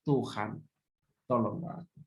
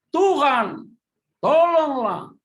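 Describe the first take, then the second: First: Low, soft prayer for help; hushed plea. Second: Loud, high cry for help; Peter crying out. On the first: Shown as a demonstration. Preacher showing the congregation a quiet plea to God. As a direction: murmur it to God under your breath. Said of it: "kita harus teriak". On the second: Acted. Preacher shouting Peter's cry as he sinks. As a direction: shout it like a man sinking in the water. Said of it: "lalu berteriak".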